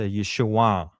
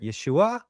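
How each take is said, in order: First: The name ends in a nasal back sound, falling. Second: The name ends with the pitch going higher. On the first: The speaker calls it right. "the proper way to say it at that time is a nasal back sound, and it's a downward" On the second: The speaker calls it wrong. "or they might even go higher"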